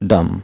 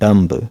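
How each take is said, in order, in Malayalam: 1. ഈ വാക്ക് b ശബ്ദമില്ലാതെയാണ് അവസാനിക്കുന്നത്. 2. ഈ വാക്ക് കേൾക്കാവുന്ന b ശബ്ദത്തോടെയാണ് അവസാനിക്കുന്നത്. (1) "ബി ലെറ്റർ അവിടെ നമ്മൾ സൈലന്റ് ആക്കി വെക്കണം" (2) "ദിസ് ഈസ് നോട്ട് ഡംബ്"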